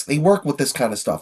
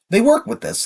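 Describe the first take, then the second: First: Said in the usual way. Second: "work" lifted high and punched; stress on work. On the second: Real, not acted. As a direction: lean hard on "work" to defend the vocals.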